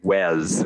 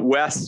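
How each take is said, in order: First: The name ends with a buzzing z sound. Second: The name ends with a hissing s sound. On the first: This is how people in England said it. "everyone called me Wes what we would call a Z sound" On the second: This is the usual American way to say it. "Wes would be the more normal American pronunciation"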